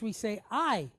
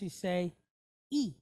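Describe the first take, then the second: First: The vowel is a gliding 'eye' sound. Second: The vowel is a pure high 'ee' sound. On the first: This is the English pronunciation. "English, we say I" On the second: This is the Spanish pronunciation. "Spanish, you say E"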